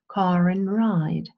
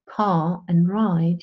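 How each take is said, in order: First: The R is linked into the next word. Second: The R is not linked into the next word.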